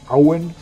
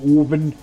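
First: The name starts with an 'ow' diphthong. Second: The name starts with a long 'oh' vowel. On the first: The speaker knows the local dialect. The speaker calls it right. "Auen wird Owen geschrieben, aber nicht so ausgesprochen" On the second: The speaker is an outsider to the local dialect. The speaker calls it wrong. "Da hast du dich schon verraten"

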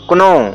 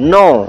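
First: The word starts with a k sound. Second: The word starts with an n sound. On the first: The speaker calls it wrong. "न कि इसे पढ़ेंगे क्नो" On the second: The speaker calls it right. "इसे नो पढ़ेंगे"

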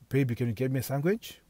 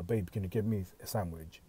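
First: The voice rises at the end. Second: The voice falls at the end.

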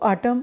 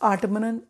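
First: The word ends in an m sound. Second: The word ends in an n sound. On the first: The speaker calls it right. "आटम pronounce करना है" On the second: The speaker calls it wrong. "आटमनन नहीं"

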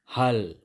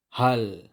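The two takes are said the same way.

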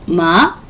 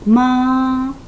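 First: The pitch rises upward. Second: The pitch stays high and level. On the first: "이성 마 올려줍니다" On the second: "일성 마"

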